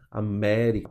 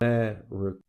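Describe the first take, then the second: First: All vowels are pronounced full and clear. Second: The unstressed vowels are reduced and murmured. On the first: "as demais a gente pronuncia com o mesmo capricho" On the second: "Só a sílaba tônica que é forte"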